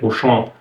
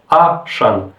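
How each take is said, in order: First: The first vowel is an 'o' sound. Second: The first vowel is an 'a' sound. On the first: This is the French pronunciation. "donc en français Auchan, A U, donc le son O" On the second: This is the Russian pronunciation. "ils l'ont transformé en A-chan, donc pas O, mais A"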